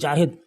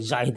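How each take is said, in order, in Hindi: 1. नाम की शुरुआत 'j' की आवाज़ से होती है। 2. नाम की शुरुआत 'z' की आवाज़ से होती है। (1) "लेकिन जाहिद बोलते हैं जाहिद। ... बिल्कुल गलत है।" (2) "ज़ाहिद जे अलिफ और हे दाल छोटी है ज़ाहिद इस तरह"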